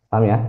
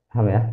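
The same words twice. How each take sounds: The two takes are said the same way.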